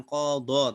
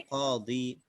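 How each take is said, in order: First: Qadha ending in an open vowel, not i; qadha, final i swapped for an open vowel; wrong vowel ending. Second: Qadi ending on a long i; qadi, last vowel i rather than a; correct i ending. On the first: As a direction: say qadha with the last vowel opened, no i. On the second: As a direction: say qadi with a clear ee at the end. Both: Shown as a demonstration. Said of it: "bukan qadha, tapi qadi".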